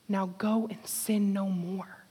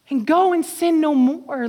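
First: Softer, slow and tender; gentle release. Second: Louder, ringing call; preached. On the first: A narrator's reading. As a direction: hand it over like a quiet blessing. Soft slow Jesus quote. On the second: Acted. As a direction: proclaim it over the room. Preached again at full force.

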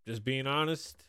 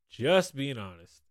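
First: Said in the usual way. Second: Slow, with "Just" drawn out; emphasis on "Just". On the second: Real, not acted. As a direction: lean hard on "Just".

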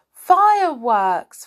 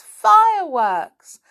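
First: Slow, loud delighted shout; pixie. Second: Higher, louder delighted shout; pixie. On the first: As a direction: shout it with glee. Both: Acted. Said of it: "shouted the angry pixie in delight".

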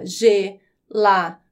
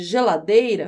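First: "ge-la-dei-ra" in four slow, separate syllables. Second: Said in the usual way. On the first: Shown as a demonstration. Teacher divides a word for students, "ge-la-dei-ra" syllable by syllable. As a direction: break "ge-la-dei-ra" apart, pausing between syllables. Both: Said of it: "quando eu vou dividir a sílaba".

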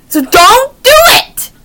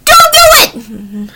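First: Said in the usual way. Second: 1 slow whiny plea. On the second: Real, not acted. Pleading with parents not to.

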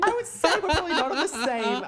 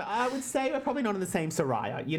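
First: Mock British, laughing, higher and louder; playful British read; saying Saraya right. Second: Said in the usual way. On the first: Shown as a demonstration. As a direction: say it like Paige would, laughing. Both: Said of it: "You said it right".

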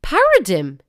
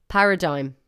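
First: Paradigm ending in "dim", loud and high; paradigm said wrong. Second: Paradigm ending in "dime"; paradigm said correctly. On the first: Testing the app aloud for listeners, Paradigm mispronounced as "para-dim". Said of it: "It's not paradigm". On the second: Correcting the take for the app, Paradigm said as "para-dime". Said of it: "it's paradigm". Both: Shown as a demonstration.

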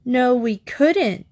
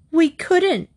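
First: Drawn-out, emphatic echo, pitched a little high; echoed protest. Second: High-pitched outburst of protest, just short of shouting; near shout. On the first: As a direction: echo the refusal slowly and firmly. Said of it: "Diana echoed". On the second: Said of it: "Trixie almost shouted". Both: A narrator's reading.

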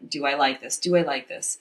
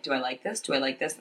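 First: Said in the usual way. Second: Quiet, hushed inner thought. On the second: Retold or imitated. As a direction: say it softer, as if only in your head. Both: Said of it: "And I'm in my head".

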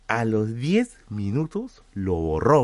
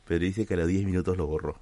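First: Slow, leaning hard on "diez"; stress on diez. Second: Said in the usual way. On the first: Shown as a demonstration. Streamer repeats to chat the shocking detail, stressing "diez". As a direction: drag it out and punch "diez".

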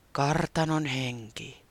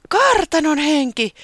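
First: Ghost answer. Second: "kartanon henki" high, loud and slow in awe; delighted. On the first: Ghost introducing itself to Taputi, slow and mysterious. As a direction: intone "Kartanon henki" slowly and mysteriously. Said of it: "kuului vastaus". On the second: Taputi thrilled at the ghost, saying "kartanon henki" high and loud. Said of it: "se riemastui". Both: A narrator's reading.

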